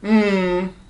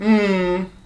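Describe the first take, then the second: First: The hum's pitch falls from high to low. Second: The same.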